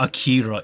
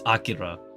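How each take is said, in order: First: The name is said with an English-style pronunciation. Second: The name is said with a Japanese-style pronunciation. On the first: The speaker calls it wrong. "It's not Akira" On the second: The speaker calls it right. "It's pronounced as Akira. The Japanese pronunciation"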